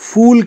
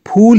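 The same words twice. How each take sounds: First: It begins with a lip-and-teeth f sound. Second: It begins with a breathy aspirated p sound. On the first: The speaker calls it wrong. "फूल कह के उसका अपमान न करें" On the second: The speaker calls it right. "उच्चारण में फूल ही कहें"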